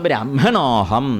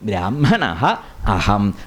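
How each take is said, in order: First: The two words are fused into one. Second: The two words are said separately. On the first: This is how it is read in the verse. "ബ്രാഹ്മണോഹം എന്നേ പറയാവൂ" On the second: This is only for splitting words to explain meaning. "പദച്ഛേദം ചെയ്ത് അർത്ഥം പറയുമ്പം"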